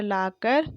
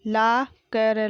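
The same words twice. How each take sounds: First: Said in the usual way. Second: ला कर broken into laa, ka, ra; slow ला कर, each letter separate; spelled out. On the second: Shown as a demonstration. Teacher sounding out ला कर for pupils, syllable by syllable. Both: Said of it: "मैंने इस तरीके से पढ़ा".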